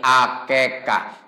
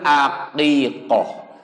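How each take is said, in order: First: It has three syllables with e vowels. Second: It has three syllables with i and o vowels. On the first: The speaker calls it wrong. "Sunda susah jadi akekah" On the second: The speaker calls it right. "Yang betul aqiqoh"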